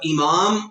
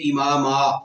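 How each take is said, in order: First: The word ends on a bare m sound. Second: The word ends with a long a vowel. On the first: The speaker calls it wrong. "इमाम नहीं पढ़ेंगे" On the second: The speaker calls it right. "बल्कि इमामा, अलिफ पढ़ेंगे"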